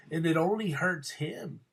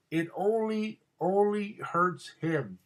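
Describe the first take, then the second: First: Said in the usual way. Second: "only" said higher, the whole line very slow; stress on only. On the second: Real, not acted. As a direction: drag out "only hurts him" to drive it home. Repeats the point for emphasis.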